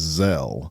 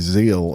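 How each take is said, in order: First: The vowel is a short eh sound. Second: The vowel is a long ee sound. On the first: The speaker calls it right. "somebody told me it was Zelle" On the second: The speaker calls it wrong. "I used to say Zeal"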